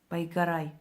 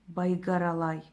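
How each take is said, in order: First: The word is said without an extra syllable. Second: The word is said with an extra syllable. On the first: The speaker calls it right. "извиняюсь" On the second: The speaker calls it wrong. "одной буквой неправильно произнесла"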